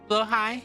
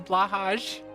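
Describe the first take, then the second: First: The first vowel sounds like 'o', ending 'hai'. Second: The first vowel sounds like 'a', ending 'haj'. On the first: The speaker calls it right. "it's pronounced Blohai" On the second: The speaker calls it wrong. "but everyone says says Blahaj"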